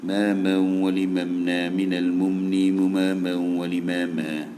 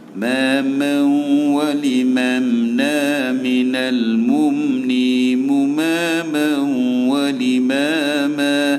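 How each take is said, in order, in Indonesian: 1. Dibaca dengan cepat dan hampir tanpa irama. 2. Dibaca dengan tempo sedang dan sedikit irama. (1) "Dia laju je" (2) "an masih ada irama sikit lagi"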